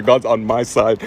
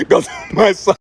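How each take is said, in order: First: Low, slow, drawn-out mock gloat; smug gloating. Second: Laughing gloat. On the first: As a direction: savor the victory slowly and low. Gloating after witness fails. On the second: Retold or imitated. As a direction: gloat again through a laugh, drawn out. Repeats gloat while cracking up.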